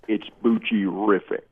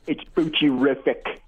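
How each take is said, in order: First: It is said in a deeper, bassier voice. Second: It is said in a normal voice.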